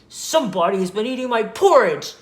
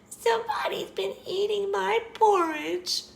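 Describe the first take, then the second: First: The voice is loud, deep and growly. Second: The voice is high and squeaky. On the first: "he said in his loud, growly voice" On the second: "he squeaked"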